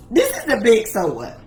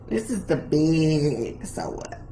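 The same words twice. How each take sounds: First: Said in the usual way. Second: Low, soft, with "big" stretched very long; slow down and hold the word "big"; drawn-out BIG. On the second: Real, not acted. Preacher introducing the main point, drawn-out "big".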